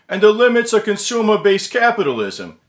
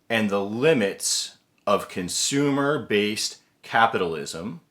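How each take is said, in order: First: It is said in an old-time Brooklyn accent. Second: It is said in the speaker's ordinary accent.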